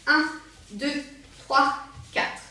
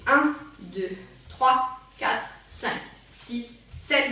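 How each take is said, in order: First: Punchy counting for a faster step; quicker count. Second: Evenly spaced slow counting. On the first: Dance teacher trying the rapid version, quicker count. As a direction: count a slightly brisker beat. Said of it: "l'essayer en rapide". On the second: Dance teacher demonstrating a slow rhythm, slow count. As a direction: count out a slow beat, leaving gaps. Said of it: "qui est plutôt lent". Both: Shown as a demonstration.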